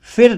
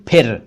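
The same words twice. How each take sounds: First: फिर as "fir"; mispronounced ph as f. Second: फिर as "p-hir"; aspirated ph. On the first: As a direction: start फिर with a hissed f. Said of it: "नहीं बोलना चाहिए हमें". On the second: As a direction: pop the lips on फिर. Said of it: "हमें बोलना चाहिए". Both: Shown as a demonstration.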